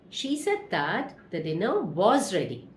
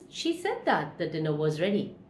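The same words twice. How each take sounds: First: The sentence is spoken slowly and carefully. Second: The sentence is spoken confidently at natural speed. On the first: "Repeat slowly" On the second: "Repeat confidently"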